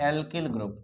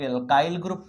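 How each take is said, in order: First: एल्किल with a short "i" in the second syllable, "al-kil"; usual pronunciation. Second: एल्काइल with a long "eye" glide, "al-kyle"; alternative pronunciation. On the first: Teacher names the group for students, एल्किल said "al-kil". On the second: Teacher shows how some people read it, एल्काइल said "al-kyle". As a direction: say एल्काइल as "al-KYLE", rhyming with "mile". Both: Shown as a demonstration. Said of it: "कुछ लोग एल्काइल group पढ़ते हैं".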